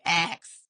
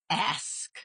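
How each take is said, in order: First: The word ends with a k then s sound. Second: The word ends with an s then k sound. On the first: "I was pronouncing it more like axe" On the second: "you know how we always say the ask. A S K"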